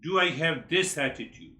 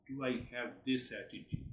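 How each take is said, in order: First: Asked out loud to the audience with weight on do; challenging rhetorical question; firm. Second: Softly asked, almost to himself; hushed rhetorical question; quiet. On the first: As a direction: put it plainly and firmly to the room. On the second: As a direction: murmur the question inward. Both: Shown as a demonstration.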